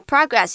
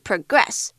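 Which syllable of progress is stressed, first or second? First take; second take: first; second. First: The stress is on the first syllable. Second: The stress is on the second syllable. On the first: It is a noun meaning how much is done. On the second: It is a verb meaning to move forward.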